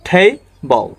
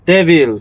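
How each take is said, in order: First: The first t has a strong puff of air. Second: The first t is soft and unaspirated. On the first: The speaker calls it right. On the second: The speaker calls it wrong.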